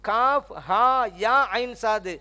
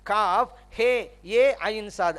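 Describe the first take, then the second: First: The letters ha and ya end in 'a'. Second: The letters ha and ya end in 'e'.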